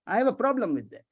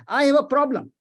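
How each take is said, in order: First: Said in the usual way. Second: Louder, higher, leaning hard on the objection; emphatic. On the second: Real, not acted. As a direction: plant your feet and object. Repeats the phrase, first time emphatic.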